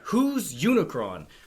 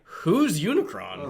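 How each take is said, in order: First: The question sounds fed up and exasperated. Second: The question sounds plainly and genuinely curious. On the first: He keeps hearing the name and nobody will explain it. The speaker calls it wrong. "sounds like he's heard the name Unicron and people just keep mentioning it" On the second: He is asking about the name for the first time. The speaker calls it right. "should be more like"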